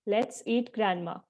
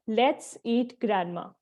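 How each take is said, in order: No difference in how they are said.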